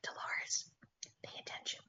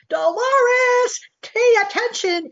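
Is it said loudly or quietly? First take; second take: quietly; loudly. First: It is said quietly and calmly. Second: It is screamed loudly.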